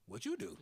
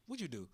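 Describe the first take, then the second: First: "you" jumps high, then falls; stress on YOU. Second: "what" leads, "you do" falls away; stress on WHAT. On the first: Asking right back at the barbershop, high stress on "you". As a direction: throw the question back, punching "you". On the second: Barber asking a man he overheard talking, stress on "what". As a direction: ask it with the weight on "what". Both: Retold or imitated. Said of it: "he was like".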